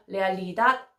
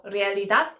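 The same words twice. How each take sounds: First: 레알리닷 with the stress pushed onto the front syllables instead of 닷; wrong stress. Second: 레알리닷 with the stress on the final 닷; stress on dad. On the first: Learner imitating her own bad habit, stress misplaced at the front of 레알리닷. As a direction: lean on the start of 레알리닷 and let 닷 go weak. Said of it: "이상하게 읽더라고요". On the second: Learner showing how 레알리닷 should be stressed, stress on the final 닷. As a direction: lean on the last syllable 닷 of 레알리닷. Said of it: "닷 부분에 강세가 있는데". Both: Shown as a demonstration.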